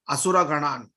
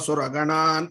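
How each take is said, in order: First: An 'a' vowel is sounded before 'sura'. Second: No 'a' vowel is sounded before 'sura'. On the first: An extra syllable is added to the count. "you have to start with Asura Ganan" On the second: The syllable count is kept without an extra syllable. "if you are not an asthma patient, Nashayanto Suraganan, you have to go like that"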